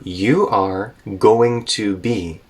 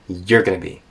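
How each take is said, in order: First: Every word is said fully and separately. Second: The words are linked and reduced together. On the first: "So you are going to be connects all the way into" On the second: "connects all the way into you're gonna be"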